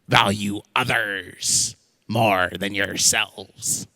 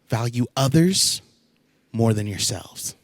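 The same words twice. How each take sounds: First: It is said in a pirate voice. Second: It is said in a normal voice.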